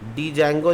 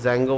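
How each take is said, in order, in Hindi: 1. D बोला जाता है, jango से पहले। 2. D साइलेंट है; सिर्फ jango सुनाई देता है। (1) "डी जैंगो नहीं बोलते हैं" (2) "जैंगो बोलते हैं, डी साइलेंट हो जाता है"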